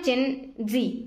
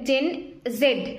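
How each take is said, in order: First: The final letter is pronounced zee. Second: The final letter is pronounced zed. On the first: This is how it is commonly pronounced. "এটার pronunciation হয় gen জি" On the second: This is what it is actually called. "এটাকে কিন্তু actually বলে gen জেড"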